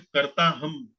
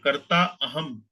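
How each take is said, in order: First: The two words are merged into one. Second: The two words are said separately. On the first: "कर्ता अहम को मिलाकर कर्ता हम ऐसे करके बना दिया गया है"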